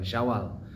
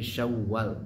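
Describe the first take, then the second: First: The w sound is short and single. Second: The w sound is held long and doubled. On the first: The speaker calls it wrong. "bukan Syawal" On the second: The speaker calls it right. "tapi Syawal pakai tasydid"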